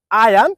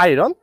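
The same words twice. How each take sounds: First: Iron said as eye-an with no r sound, raised and louder; correct pronunciation. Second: Iron said with a clear r, as eye-ron; wrong pronunciation. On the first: Teacher modelling iron for learners, clear and raised. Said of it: "I can repeat the word". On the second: Teacher contrasting the learners' mistake, plainly. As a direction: show the wrong r-full version. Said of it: "This is not". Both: Shown as a demonstration.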